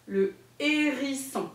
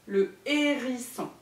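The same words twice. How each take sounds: First: "Le hérisson" said slowly, each syllable pulled apart, ending on a fall; careful pronunciation. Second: "Le hérisson" slowly, syllables separated, falling at the end; careful pronunciation again. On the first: Teacher modelling a hard word for young children, slow and syllabified. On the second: Teacher repeating the tricky animal name for a child, slow and clear. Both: Shown as a demonstration. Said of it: "il n'est pas facile à prononcer".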